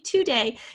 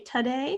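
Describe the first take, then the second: First: The first vowel is a clear O sound. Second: The first vowel is a reduced schwa sound. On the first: "If you say today, you know to spell with an O" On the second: "you have a little bit of a schwa there"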